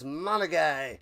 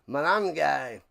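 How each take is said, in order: First: The name has no n sound before the g. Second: The name has an n sound before the g. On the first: The speaker calls it wrong. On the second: The speaker calls it right.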